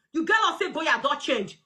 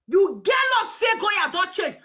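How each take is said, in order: First: Said in the usual way. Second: Shouted repeat. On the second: Real, not acted. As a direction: hammer the line home, shouting it.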